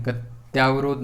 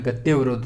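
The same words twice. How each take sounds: First: गत्यावरोध with a long yaa; incorrect form. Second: गत्यावरोध said as gatyevarodh, with ye; correct form. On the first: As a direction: open the middle to gat-yaa-varodh in गत्यावरोध. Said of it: "नहीं होता है". (गलत रूप गत्यावरोध, 'त्या' के साथ) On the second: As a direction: say the middle of गत्यावरोध as tye, not tyaa. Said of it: "लेकिन ये गलत है". (सही रूप गत्यावरोध, 'त्य' हल्का बोलकर) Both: Shown as a demonstration.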